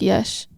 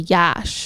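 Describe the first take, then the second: First: The vowel sounds like the e in mesh. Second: The vowel sounds like the a in ash. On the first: The speaker calls it right. "It's like Yesh" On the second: The speaker calls it wrong. "it's not really Yash"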